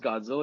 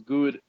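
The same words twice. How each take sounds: First: The first vowel is short, as usual. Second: The first vowel is a long 'oo' sound. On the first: The speaker calls it right. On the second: The speaker calls it wrong.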